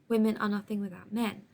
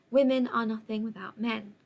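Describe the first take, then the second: The two takes are said the same way.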